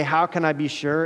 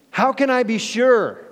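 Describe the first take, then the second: First: Said in the usual way. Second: High, louder doubtful question; doubting Zechariah. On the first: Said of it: "another way to say". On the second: Acted. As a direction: ask it high, full of doubt. Zechariah's doubt quoted again.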